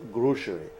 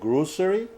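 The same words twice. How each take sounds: First: The middle consonant is an sh sound. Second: The middle consonant is an s sound. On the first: "other people pronounce it sh" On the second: "some people, people pronounce it s"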